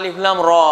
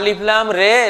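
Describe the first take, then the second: First: The last syllable ends in an 'a' vowel. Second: The last syllable ends in an 'e' vowel. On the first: The speaker calls it right. "তুই র পড়।" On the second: The speaker calls it wrong. "এই মৌলবী রে পড়িস কেন?"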